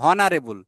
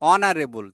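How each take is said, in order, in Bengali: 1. শব্দটি 'h' ধ্বনি দিয়ে শুরু হয়। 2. শব্দটি স্বরধ্বনি দিয়ে শুরু হয়। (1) "আমরা কিন্তু বলি না হনারেবল" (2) "তাই ও থেকে হচ্ছে"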